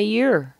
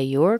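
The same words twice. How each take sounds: First: "you're" with the vowel weakened to YER; reduced form of your. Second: "your" with a clear OR vowel; full form of your. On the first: Teacher gives the second option, reduced YER. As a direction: say "you're" as a drawn YUR, no OR. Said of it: "we could say you're". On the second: Teacher gives the first option, full YOR. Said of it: "we could say your". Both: Shown as a demonstration.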